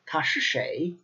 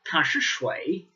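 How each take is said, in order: First: The last word is pronounced like shay. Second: The last word is pronounced like shui. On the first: This is the usual form across most places. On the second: This is a regional form heard among older people.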